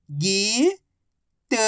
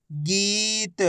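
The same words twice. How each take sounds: First: गीत split as गी, long pause, त; syllable by syllable. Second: गीत joined as one soft word with long ee; blended word. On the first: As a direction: sound out गीत slowly, गी rising, then त alone. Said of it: "एक अक्षर की पहचान करो, उनका उच्चारण करो". (गीत को अक्षर-अक्षर अलग बोलें) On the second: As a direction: blend गी and त into गीत without a gap. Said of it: "आपस में मिला के पढ़ दो". (गीत को मिलाकर बोलें) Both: Shown as a demonstration.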